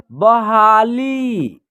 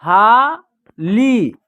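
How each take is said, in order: First: बहाली joined up, long vowels stretched; blended word. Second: बहाली broken into ब, हा, ली with pauses; split syllables. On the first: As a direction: say बहाली slowly as one word. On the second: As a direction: sound out बहाली piece by piece. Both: Shown as a demonstration. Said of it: "हम दूसरा तरीका देखिए".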